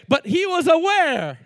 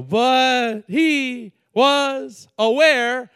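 First: Said in the usual way. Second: Very slow, louder, stretched words; said very slowly. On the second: Shown as a demonstration. Preacher slowing down for emphasis, very slow. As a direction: drag out every word of "But he was aware". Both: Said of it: "I'm gonna say that slow".

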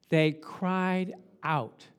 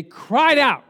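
First: Said in the usual way. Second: Higher, forceful, with CRIED OUT punched; loud proclamation. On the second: Shown as a demonstration. Preacher correcting the idea of crying, loudly proclaiming. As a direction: proclaim 'cried out' at full voice. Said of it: "it was a proclamation".

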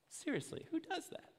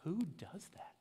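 First: Much higher and incredulous; exaggerated who does that, pitched way up; outraged disbelief. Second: Mock disbelief. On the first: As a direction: pile on the shock, voice climbing high. Repeated with mock outrage. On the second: Mock outrage at the boss.

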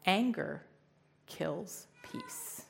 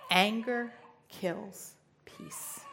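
First: Said in the usual way. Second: Anger kills peace, every word slowed and weighted; solemn slow restatement of Anger kills peace; slow emphatic repeat. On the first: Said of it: "what Jesus said to me". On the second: Shown as a demonstration. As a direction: let Anger kills peace sink in, very slowly.

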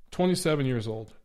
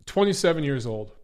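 Both takes have the same delivery.

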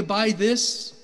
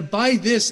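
First: "by this" raised and leaned on; stress on "by this". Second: "by this" said loud and leaned on; stress on "by this". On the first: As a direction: set "by this" apart. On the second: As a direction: punch "by this" as the point. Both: Shown as a demonstration. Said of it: "make a point of this".

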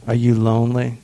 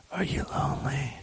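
First: Said in the usual way. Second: Hushed, whispered question. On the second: Pretend. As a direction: whisper it very softly into the mic. Whispers question, repeats it aloud.

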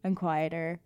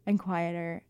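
Both takes have the same delivery.

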